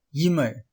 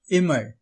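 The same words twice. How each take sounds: First: இமை said as "yimai"; wrong y onglide. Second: Said in the usual way. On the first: Shown as a demonstration. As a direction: put a y sound before இமை. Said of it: "தவறான உச்சரிப்பு". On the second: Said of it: "இதன் தவறான உச்சரிப்பு".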